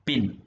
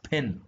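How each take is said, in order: First: The p is released without a puff of air. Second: The p is released with a puff of air. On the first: The speaker calls it wrong. "And not പിൻ" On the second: The speaker calls it right. "It is actually pronounced as പെൻ"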